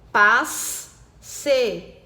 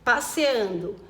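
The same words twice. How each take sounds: First: "Passeando" very slowly, a pause after every syllable. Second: Said in the usual way. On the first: Shown as a demonstration. Teacher checking syllable division, "Passeando" syllable by syllable. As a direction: chop "Passeando" into separate spoken syllables. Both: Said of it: "separar conforme eu falo".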